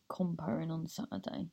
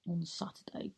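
First: Said in the usual way. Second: Quiet unvoiced whisper on on Saturday; whispered aside. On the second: Real, not acted. Whispering the Saturday date to listeners. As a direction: breathe on Saturday as a hushed whisper.

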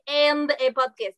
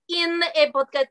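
First: AND leaned on in a mock Russian accent; stress on AND. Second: IN punched higher as the wrong word, mock Russian; "in" pitched up, Russian-accented; stress on IN. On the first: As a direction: insist on the word AND, Russian-accented. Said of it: "it is important that it is the". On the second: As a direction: reject the word IN with heavy emphasis. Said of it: "It's not".

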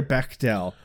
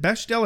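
First: "Bechdel" said with a hard k, BECK-del; alternative pronunciation. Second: "Bechdel" said with a sh sound, BESH-del; alternative pronunciation. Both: Shown as a demonstration. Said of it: "didn't know how it was pronounced".

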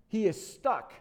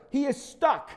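First: Said in the usual way. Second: He is stuck, high and loud; emphatic. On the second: Shown as a demonstration. Preacher stressing Absalom's plight, high and loud.

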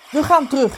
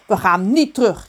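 First: Mildly raised, higher voice; acted father's exclamation; father calling out. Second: Mildly indignant, raised voice; acted indignant retort from a mother. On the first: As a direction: call it out as a fed-up father. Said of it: "riep zijn vader". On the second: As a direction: push back firmly on NIET. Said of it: "riep zijn moeder verontwaardigd".

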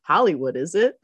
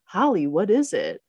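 First: "Hollywood" as one word, then "is it?"; run together as Hollywood. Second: "Holly" set apart as a name, then "what is it?"; name, then question. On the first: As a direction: join it into "Hollywood", then a questioning "is it?". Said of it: "But the closed captioning said". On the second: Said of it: "And then Max says". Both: Retold or imitated.

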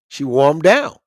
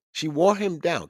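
First: Emphatic. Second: Said in the usual way. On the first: Real, not acted.

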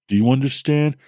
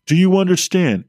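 First: Said in the usual way. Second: Higher, louder insistent repeat; urgent demand. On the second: Acted. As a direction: press him hard for an answer.

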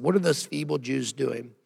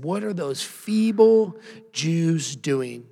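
First: Said in the usual way. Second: Slow, sneering bully taunt; a preacher voicing a slow, jeering bully; mocking bully. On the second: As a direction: drag it out like a schoolyard bully. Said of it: "this is what a bully sounds like right here".

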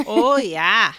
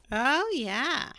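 First: Loud, hammy Scottish burr; mock Scottish greeting; bad Scottish accent. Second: Midwestern housewife. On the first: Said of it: "that turned into some bad Scottish accent". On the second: Pretend. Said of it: "I sounded like a Midwestern housewife".

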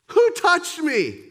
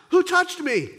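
First: Slow, louder stern demand; stern Jesus, slower. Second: Jesus demanding, higher and louder; sharp demand from the crowd; stern Jesus. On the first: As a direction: press the question home, slowly. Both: Acted. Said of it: "Jesus seems to be stern here".

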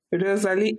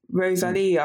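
First: "Rosalie" in a broad British accent; full-on British accent. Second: "Rosalia" said the Spanish way; attempted Spanish accent. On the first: Mock-greeting a Spanish person, full-on British accent. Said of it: "like, full-on British accent being like". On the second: Trying a friend's name as in Spain, Spanish accent. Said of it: "the way the Spanish speak". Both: Shown as a demonstration.

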